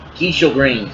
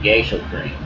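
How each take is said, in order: First: The first syllable does not sound like 'gay'. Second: The first syllable sounds like 'gay'. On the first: The speaker calls it right. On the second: The speaker calls it wrong.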